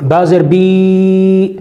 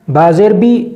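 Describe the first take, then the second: First: با زیر بی said very slowly, the بی held long; wrongly drawn-out vowels. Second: Said in the usual way. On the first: Shown as a demonstration. Teacher showing students the wrong lengthened بی, very slow. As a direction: stretch بی far too long, as the mistake. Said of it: "اس کو اس طرح نہ پڑھنے دیں". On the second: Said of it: "جلدی پڑھنے کی تاکید فرمائیں".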